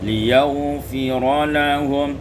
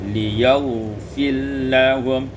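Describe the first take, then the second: First: The r is pronounced with its vowel before l. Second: The r merges fully into the following l.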